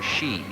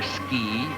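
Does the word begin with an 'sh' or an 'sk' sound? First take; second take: sh; sk. First: The word begins with an sh sound. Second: The word begins with an sk sound. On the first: This is the less common form in America. "It is pronounced either ski or she" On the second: This is the more common form in America. "the former pronunciation seems to be the more common in America"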